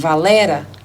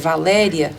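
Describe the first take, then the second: First: The diphthong is reduced to one vowel. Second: The name ends with a full diphthong.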